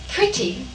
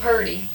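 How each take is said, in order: First: The word is said carefully with a crisp t. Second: The word is slurred to sound like 'purdy'. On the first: It sounds too prim. "it seems like pretty sounds prissy" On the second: It sounds too folksy. "You hate to just say purdy"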